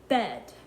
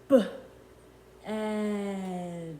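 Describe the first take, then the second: First: The word is said quickly as one unit. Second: The word is said slowly, split into sounds. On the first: The speaker calls it wrong. "I'm saying it too fast to hear the sounds" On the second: The speaker calls it right. "Let me slow it down"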